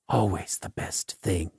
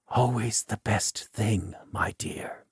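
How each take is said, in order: First: Hushed, lower repeat, half to himself; very soft, low murmur to the dead; whisper. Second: Soft, intimate whisper to a beloved. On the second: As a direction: whisper it tenderly to her. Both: A narrator's reading. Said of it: "Then he whispers to her".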